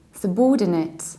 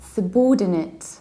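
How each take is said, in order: No difference in how they are said.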